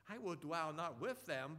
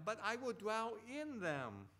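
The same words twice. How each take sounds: First: "not with" set apart, WITH stressed. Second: IN raised high and drawn out; stress on IN. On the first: Preacher contrasting two readings of the verse, stress on "with". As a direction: lean on "with" as the rejected word. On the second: Preacher correcting the reading of the verse, stress on "in". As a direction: hit "in" hard and slow, then fall. Contrasts in against with. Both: Shown as a demonstration.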